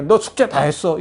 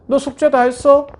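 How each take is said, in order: First: Said in the usual way. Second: Loud, high scolding snap; mother yelling about homework at her child. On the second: Retold or imitated. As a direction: bark it at the kid like an annoyed mom. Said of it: "윽박 지르고".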